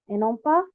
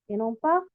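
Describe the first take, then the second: Both takes have the same delivery.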